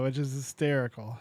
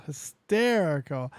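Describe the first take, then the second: First: Said in the usual way. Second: "Hysterical" drawn out slowly, each syllable given weight; savoring the word. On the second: Shown as a demonstration. Host repeats the word to savor the prank, drawn out. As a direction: linger on "Hysterical" to relish it.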